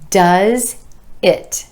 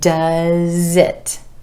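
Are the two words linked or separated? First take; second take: separated; linked. First: The two words are said separately. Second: The z sound links into the next word.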